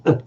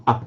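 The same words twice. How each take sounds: First: "uh" as a short neutral schwa; Sinhala short vowel. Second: "uh" slightly more open, toward a short ah; Hindi open vowel. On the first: Teacher comparing languages, "uh" as short Sinhala vowel. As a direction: say "uh" short and less open. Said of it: "Sinhala is more of a ch, an uh sound". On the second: Teacher comparing languages, "uh" as more open Hindi vowel. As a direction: open "uh" a little but keep it short. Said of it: "slightly more open uh sound". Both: Shown as a demonstration.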